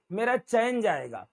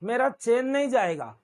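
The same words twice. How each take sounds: First: चैन opened out as "chaa-en"; correct two-vowel चैन. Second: चेन with a single pure "e"; wrong-vowel चेन. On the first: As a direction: glide from "a" to "e" inside चैन. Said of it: "तो ये चैन है". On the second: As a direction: say चेन like English "chain", no "aa" in it. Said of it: "not चेन". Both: Shown as a demonstration.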